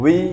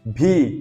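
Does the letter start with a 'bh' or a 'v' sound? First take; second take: v; bh. First: It starts with a 'v' sound. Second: It starts with a breathy 'bh' sound. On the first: The speaker calls it right. "भी नहीं होता, वी होता है" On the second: The speaker calls it wrong. "इसको भी भी पढ़ देते कभी कभी हम, भी, जो कि गलत है।"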